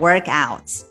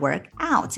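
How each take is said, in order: First: The stress is on the first part, work. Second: The stress is on the second part, out. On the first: It is the noun, a workout. "要重读前面这个动词" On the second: It is the verb, to work out. "重读这个介词out"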